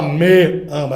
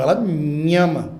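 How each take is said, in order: First: "Me" hit hard as a full, strong syllable; overstressed pronoun. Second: "me" said weakly, leaning on "ama"; weak unstressed pronoun. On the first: Teacher showing students what nobody says, overstressed "Me". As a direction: punch "Me" as if it stood alone. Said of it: "na hora de serem pronunciados eles são mais fracos". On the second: Teacher showing how it is really said, unstressed "me". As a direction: let "me" melt lightly into "ama". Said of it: "eles são mais fracos". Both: Shown as a demonstration.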